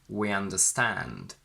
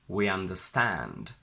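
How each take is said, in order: No difference in how they are said.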